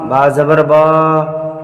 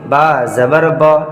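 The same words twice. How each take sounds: First: The final vowel is drawn out long. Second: The final vowel is held only briefly. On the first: The speaker calls it wrong. "बहुत सारे बच्चे किस तरह से पढ़ते हैं ... ये भी तरीका गलत है" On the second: The speaker calls it right. "बस एकदम थोड़ा सा खींचेंगे"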